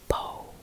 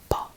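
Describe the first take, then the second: First: The vowel glides toward an oo sound. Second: The vowel is short, flat and stops dry. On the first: The speaker calls it wrong. "So people say po, po. You don't say it really like that" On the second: The speaker calls it right. "it's just very flat. It's just po"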